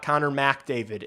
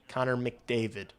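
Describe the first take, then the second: First: The 'Mc' syllable has a full 'mac' vowel. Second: The 'Mc' syllable has a short, reduced vowel. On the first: The speaker calls it wrong. "It's not Connor McDavid" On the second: The speaker calls it right. "It's M C D"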